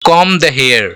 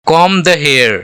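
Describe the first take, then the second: No difference in how they are said.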